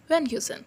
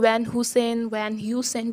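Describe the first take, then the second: First: The h sound in Heusen is nearly silent. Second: The h sound in Heusen is clearly pronounced. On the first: The speaker calls it right. "H is a little bit silent" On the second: The speaker calls it wrong. "log isko Van Heusen bolte. No"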